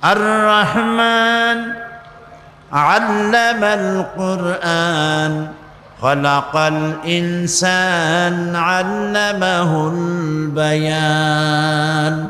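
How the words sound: It is read with pauses between phrases.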